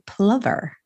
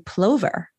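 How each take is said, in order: First: The word rhymes with Glover. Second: The word does not rhyme with Glover. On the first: The speaker calls it right. "it rhymes with with Danny Glover" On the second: The speaker calls it wrong. "I have always been told that it is a plover"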